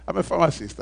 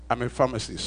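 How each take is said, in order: First: Laughing. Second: Said in the usual way. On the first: Shown as a demonstration. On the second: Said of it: "please allow me to be a pharmacist".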